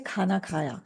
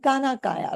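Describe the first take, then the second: First: The k sounds have a strong puff of air. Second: The k sounds have no puff of air. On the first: The speaker calls it right. "I would say khana khaya" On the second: The speaker calls it wrong. "I'm not saying kana kaya"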